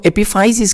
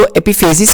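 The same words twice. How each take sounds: First: Epiphysis said as "epi-FIE-sis"; FAI pronunciation. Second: Epiphysis said as "epi-FAY-sis"; FAY pronunciation. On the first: Teacher showing students the other accepted way, epiphysis said "epi-FIE-sis". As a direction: say epiphysis with an "eye" vowel after the f. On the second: Teacher showing students one accepted way, epiphysis said "epi-FAY-sis". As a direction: say epiphysis with an "ay" vowel after the f. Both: Shown as a demonstration. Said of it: "दो तरीके से आप लोग इसकी pronunciation".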